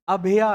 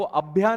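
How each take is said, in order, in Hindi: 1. इसे तीन अक्षरों में बोला जाता है, 'a-bha-ya'। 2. इसे दो अक्षरों में बोला जाता है, 'abh-ya'। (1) "अभया है" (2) "वो अभ्या नहीं है"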